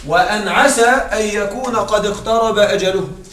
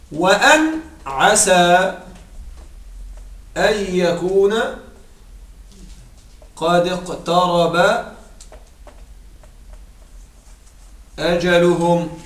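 First: Said in the usual way. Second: Slow, measured chanting of the verse; Quranic recitation. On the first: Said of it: "repeats verse plainly". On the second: Shown as a demonstration. Teacher reciting a Quran verse for the grammar lesson, slow and chanted. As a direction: draw each word out as in recitation.

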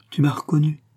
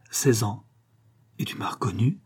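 First: Anxious tenderness. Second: Hushed whisper. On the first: Martial presses the girl again, tender and anxious. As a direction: ask again with worried tenderness. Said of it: "avec une sorte de tendresse inquiète". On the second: Martial whispers to the girl, amazed, in a hushed whisper. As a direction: breathe the question on an unvoiced whisper. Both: Acted.

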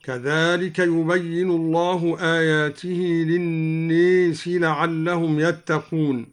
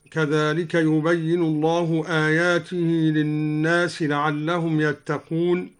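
First: "للناس" said lin-nees, aa tilted to ee; imala on an-nas. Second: Said in the usual way. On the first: Shown as a demonstration. Teacher shows al-Duri's imala, "للناس" as lin-nees. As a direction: tilt the long vowel of "للناس" towards ee. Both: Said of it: "قرأ الدوري بإمالة الناس هكذا".

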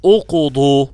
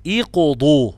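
First: اقضوا wrongly begun with u, uqdu, slow and louder; اقضوا with a rounded u, marked as wrong; wrong damma. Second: اقضوا begun with i, iqdu; اقضوا said iqdu, the correct form; correct kasra. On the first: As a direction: show the mistake اقضوا as uqdu. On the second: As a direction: start اقضوا on a clear i. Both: Shown as a demonstration. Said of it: "مش اقضوا".

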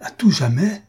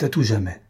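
First: JAMAIS swinging up into a high question; stunned, higher-pitched echo in disbelief; stupefied repeat. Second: Said in the usual way. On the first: A narrator's reading. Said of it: "frappé de stupeur".

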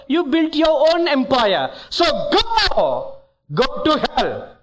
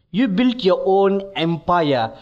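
First: Rising rebuke. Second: Said in the usual way. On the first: Retold or imitated. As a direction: build the verdict to a thundering send-off. Jesus's verdict rising to dismissal.

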